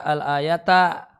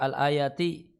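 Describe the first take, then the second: First: The word ends with an 'a' vowel. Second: The word ends with an 'i' vowel. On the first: It tells the reader to recite the verse. "Bisa juga dibaca" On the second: It continues to the end of the verse. "bisa dibaca kasrah. Majrur"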